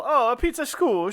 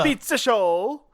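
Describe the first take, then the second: First: "school" with a clear oo vowel; correct school. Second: "shoal" said instead of "school", vowel like "show"; a pizza "shoal" with a long o; mishearing pizza school. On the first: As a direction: say "pizza school" properly. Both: Shown as a demonstration.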